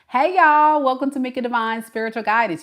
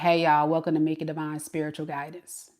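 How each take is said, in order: First: It is said smiling and upbeat. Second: It is said flat and unsmiling.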